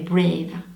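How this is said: The word is pronounced with English sounds. "Ça fait brave en anglais"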